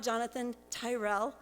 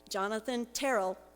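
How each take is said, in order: First: The surname does not rhyme with Daryl. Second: The surname rhymes with Daryl. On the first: The speaker calls it wrong. "It's not Jonathan Tyrell" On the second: The speaker calls it right. "like Daryl"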